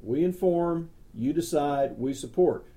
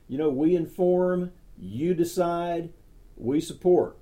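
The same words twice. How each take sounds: First: "We inform" lifted, then settling back down; second, settled repeat of the slogan; calmer repeat of slogan. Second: Each phrase punched high and loud, "you decide" slowed; first, loudest call of the slogan; emphatic slogan. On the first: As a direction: repeat the motto, easing off toward the end. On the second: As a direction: hammer the motto home, inform then decide then support. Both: Shown as a demonstration. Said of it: "That's what we do".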